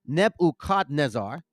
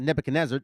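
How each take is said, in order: First: Nebuchadnezzar as neb-oo-KHAD-nez-ZAR; full vowels in Nebuchadnezzar, neb-oo-khad-nez-zar; corrected pronunciation. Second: Nebuchadnezzar run together as neb-uh-kuh-NEZ-er; quick, reduced-vowel Nebuchadnezzar, neb-uh-kuh-nezzer; common English pronunciation. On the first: Preacher corrects viewers, Nebuchadnezzar as neb-oo-khad-nez-zar. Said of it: "it's Nebuchadnezzar". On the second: Preacher rejects this reading, Nebuchadnezzar in quick English neb-uh-kuh-nezzer. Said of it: "not Nebuchadnezzar". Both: Shown as a demonstration.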